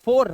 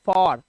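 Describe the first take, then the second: First: फॉर said with a closed "oh", like "four"; wrong long-O reading. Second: फॉर said with an open "aw"; open O reading. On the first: Teacher rejects this reading for students, फॉर as "fohr". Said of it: "फॉर नहीं". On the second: Teacher gives students the correct reading, फॉर as "fawr". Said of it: "इसे पढ़ते हैं फॉर". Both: Shown as a demonstration.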